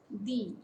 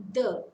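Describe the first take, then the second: First: "the" pronounced as "thee"; strong form of "the", rhyming with "see"; long E in "the". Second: "the" pronounced as "thuh"; "the" as used before a consonant, ending in a schwa; weak form of "the". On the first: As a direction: say "the" with a long ee vowel. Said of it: "with long E". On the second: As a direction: say "the" with a short neutral vowel. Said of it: "before a consonant". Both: Shown as a demonstration.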